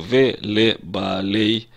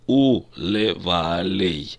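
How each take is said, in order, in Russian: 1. Начинается с 've' и имеет твёрдый 'b'. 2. Начинается с 'u' и имеет мягкий 'v'. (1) "в обычной речи мы бы сказали" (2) "По нормам высокого стиля диктор произносит"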